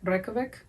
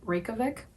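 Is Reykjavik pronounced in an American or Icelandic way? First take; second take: Icelandic; Icelandic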